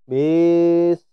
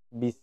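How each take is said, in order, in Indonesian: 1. Vokal setelah b dibaca panjang. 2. Vokal setelah b dibaca pendek. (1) "memanjangkan huruf ba. Contohnya" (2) "yang benar"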